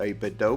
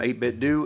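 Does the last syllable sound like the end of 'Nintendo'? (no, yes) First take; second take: yes; no. First: The last syllable sounds like the end of Nintendo. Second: The last syllable does not sound like Nintendo's ending. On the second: "that's how I say it"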